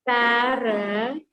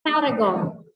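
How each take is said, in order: First: "Paragon" slowly broken into pa-ra-gon; drawn-out demo of "Paragon", R sounded; syllable-by-syllable. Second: Said in the usual way. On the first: Shown as a demonstration. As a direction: stretch "Paragon" into three separate syllables. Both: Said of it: "Three syllables".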